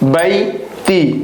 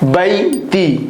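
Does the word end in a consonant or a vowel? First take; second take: vowel; vowel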